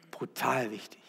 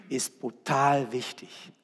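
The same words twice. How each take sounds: First: "Brutal" repeated much softer, falling; soft echo. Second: "brutal" weighted with a falling tune; stress on brutal. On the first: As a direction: let "Brutal wichtig" sink in quietly. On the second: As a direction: lean hard on "brutal". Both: Shown as a demonstration.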